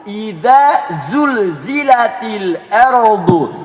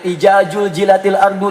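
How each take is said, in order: First: The consonants are pronounced as z sounds. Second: The consonants are pronounced as j sounds. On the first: The speaker calls it right. "Yang benar" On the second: The speaker calls it wrong. "ada yang"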